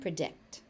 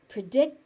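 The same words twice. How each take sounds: First: The final T is pronounced. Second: The final T is dropped. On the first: The speaker calls it right. "make sure that you get that t on the end" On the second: The speaker calls it wrong. "sounds wrong"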